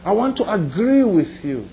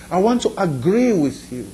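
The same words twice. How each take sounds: The two takes are said the same way.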